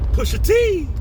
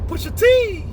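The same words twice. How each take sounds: First: It is said in a natural voice. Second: It is said in a put-on imitated voice.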